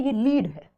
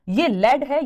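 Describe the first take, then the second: First: "लीड" said with a long ee, rhyming with need; long-vowel pronunciation. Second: "लेड" said with an e, rhyming with red; short-vowel pronunciation. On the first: Teacher contrasting two homographs, "लीड" pronounced with a long ee. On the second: Teacher contrasting two homographs, "लेड" pronounced with the e of bed. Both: Shown as a demonstration. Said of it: "pronunciation अलग है".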